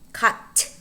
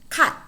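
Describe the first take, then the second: First: The final T is released with a puff of air. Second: The final T is held without a puff of air. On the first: The speaker calls it wrong. "We do not say" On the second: The speaker calls it right. "the letter T is not plosive. What we do say is"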